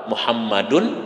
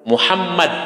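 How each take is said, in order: First: The name ends with an added vowel ending. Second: The name ends on a bare consonant. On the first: The speaker calls it right. "Harus apa?" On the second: The speaker calls it wrong. "salah itu kalau secara gramatika"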